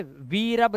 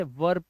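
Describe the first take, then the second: First: "वी रब" in two syllables, long ee then rab; wrong reading, vee-rab. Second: "वर्ब" in one syllable, short a before rb; e read as a. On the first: Teacher showing what not to read, "वी रब" split as vee-rab. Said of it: "वी रब नहीं पढ़ेंगे". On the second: Teacher giving the right reading, "वर्ब" as one syllable with a. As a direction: say "वर्ब" as varb, lower, no ee. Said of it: "इसे वर्ब पढ़ेंगे". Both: Shown as a demonstration.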